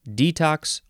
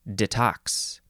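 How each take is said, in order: First: The stress is on the first syllable. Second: The stress is on the second syllable. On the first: "you can emphasize either syllable" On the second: "you can emphasize either syllable"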